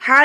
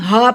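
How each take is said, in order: First: "ہا" as the other h, with a different vowel and throat sound; wrong ha. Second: "ہا" as a light, breath-like plain h; correct round ha. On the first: Teacher showing the mistake, "ہا" with the wrong h. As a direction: give the mistaken version of "ہا". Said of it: "ہا نہیں پڑھتے". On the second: Teacher correcting learners, "ہا" as the plain h. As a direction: let "ہا" come out as a simple h. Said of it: "اس کو ہم ہا پڑھتے ہیں". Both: Shown as a demonstration.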